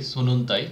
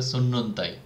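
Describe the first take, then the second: First: "সুনুনতাই" with single short n sounds, as the wrong way. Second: "সুন্নন্তাই" with a long held double n. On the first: ("সুনুনতাই" একক ছোট ন দিয়ে, ভুল উচ্চারণ) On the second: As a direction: lean on the nn in "সুন্নন্তাই". ("সুন্নন্তাই" দ্বিত্ব ন লম্বা করে) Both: Shown as a demonstration. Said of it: "আমাকে দুইটা এন এ উচ্চারণ করতে হবে".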